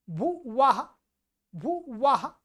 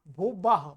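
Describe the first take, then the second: First: भुवः as bhu-va-ha, open 'w'; clear V sound. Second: भुवः said as bhu-bah, lower in pitch; mispronounced B sound. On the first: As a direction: keep the lips apart on the second syllable of भुवः. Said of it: "ये व है". (भुवः में साफ़ व) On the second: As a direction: close the lips on a 'b' in भुवः. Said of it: "ब कर देते हैं". (भुवः में व की जगह ब) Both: Shown as a demonstration.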